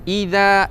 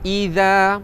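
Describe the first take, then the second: No difference in how they are said.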